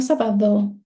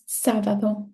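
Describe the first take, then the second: First: "sábado" wrongly stressed on the last syllable, DO; misplaced stress on DO. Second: "sábado" stressed on its first syllable, SA. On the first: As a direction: push the stress to the end of "sábado". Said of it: "It's not sábado". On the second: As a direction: hit SA in "sábado" and let the rest fall. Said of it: "It's sábado". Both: Shown as a demonstration.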